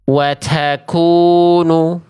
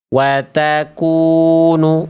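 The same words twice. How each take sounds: First: The t has a strong, exaggerated puff of breath. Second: The t has a slight, restrained puff of breath. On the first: The speaker calls it wrong. "Bacaan yang tadi adalah bacaan yang salah" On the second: The speaker calls it right. "Itu ada percikan nafas tapi nggak nggak berlebihan"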